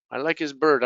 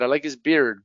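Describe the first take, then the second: First: "bird" with a central er vowel; minimal-pair demo, er in "bird". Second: "beard" with an ee glide into R; minimal-pair demo, ee in "beard"; beard vowel. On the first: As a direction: keep "bird" an R-coloured er. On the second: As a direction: keep "beard" as bee-rd. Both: Shown as a demonstration. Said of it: "difficult to hear".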